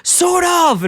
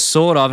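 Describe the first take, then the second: First: Much higher, louder acted cry; self-confident shout. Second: Small, half-hearted reply; unconfident answer. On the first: Homer obeying Herb's pep talk, acted confident yell. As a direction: belt it out with mock confidence. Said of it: "answer with self-confidence". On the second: Retold or imitated. Homer answering Herb's pep talk, lightly acted unsure reply. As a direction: answer without much conviction. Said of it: "No, answer with self-confidence".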